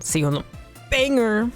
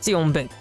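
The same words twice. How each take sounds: First: It is said with an American accent. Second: It is said with a French accent.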